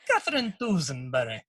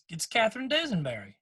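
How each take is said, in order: First: It is said in an Irish accent. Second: It is said in a general American accent.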